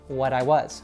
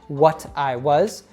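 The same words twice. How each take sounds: First: The words link smoothly with a soft T. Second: Each word is said carefully and separately. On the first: This is how it sounds in connected speech. "with connected speech, it becomes" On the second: This is how most learners say it. "you can try to say it carefully, which is probably how most learners would say it"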